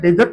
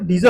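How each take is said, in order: First: The word ends with a t sound. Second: The word ends without a t sound. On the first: The speaker calls it wrong. "डेजर्ट नहीं होता" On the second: The speaker calls it right. "डीजर होता है"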